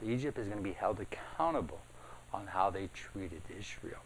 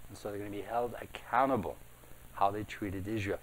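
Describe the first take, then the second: First: Hushed whisper. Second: Said in the usual way. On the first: Acted. Pastor to congregation, whispering the warning. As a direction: whisper it, voiceless and close. Pastor stresses God's judgment.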